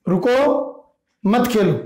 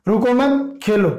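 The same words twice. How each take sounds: First: "रुको", a clear pause, then "मत खेलो" together; pause after रुको. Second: "रुको मत" run together, pause, then "खेलो"; pause after मत. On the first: Teacher showing that playing is forbidden, pause after "रुको". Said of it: "इसमें खेलने के लिए मना किया जा रहा है". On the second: Teacher showing that playing is allowed, pause after "मत". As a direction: join "मत" to "रुको" and break before "Khelo". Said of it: "इसमें खेलने के लिए कहा जा रहा है". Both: Shown as a demonstration.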